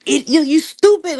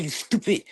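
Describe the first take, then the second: First: Higher and louder, hitting "stupid" hard; raised-voice put-down, "stupid" stressed; loud insult. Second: Quiet insult. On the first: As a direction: spit out "you stupid" with contempt. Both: Real, not acted. Insulting the caller.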